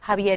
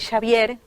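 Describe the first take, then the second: First: The name is pronounced the usual Spanish way. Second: The name is pronounced the Basque way.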